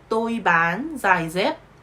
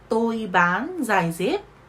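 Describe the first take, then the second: Both takes have the same delivery.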